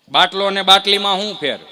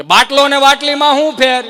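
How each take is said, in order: First: Quiz question. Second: Much higher and louder, stretching બાટલીમાં; louder repeat. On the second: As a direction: belt out the question again so the back row hears, leaning on બાટલીમાં. (બાટલીમાં પર ભાર મૂકીને ઘણું ઊંચું અને જોરથી ફરી પૂછવું) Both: Acted. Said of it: "કે ફરીથી બોલો તો".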